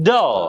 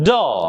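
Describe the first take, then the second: The two takes are said the same way.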